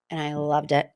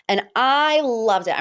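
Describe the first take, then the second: First: Said in the usual way. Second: Excited. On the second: Shown as a demonstration. Podcaster gushing over Dorit's entrance, excited. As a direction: gush over it like a fan.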